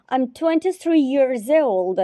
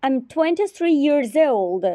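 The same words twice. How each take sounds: The two takes are said the same way.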